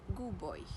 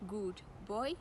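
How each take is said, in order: First: The d merges into the following b. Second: The d is pronounced before the b.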